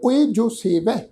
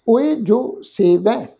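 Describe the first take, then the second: First: Said in the usual way. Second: ਓਏ ਜੋ ਸੇਵੈ drawn out slowly with a rising ਓਏ; slow recitation. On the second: Shown as a demonstration. Teacher reciting ਓਏ ਜੋ ਸੇਵੈ slowly for the congregation. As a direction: chant ਓਏ ਜੋ ਸੇਵੈ slowly, word by word. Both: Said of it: "ਖਿਆਲ ਰੱਖੋ".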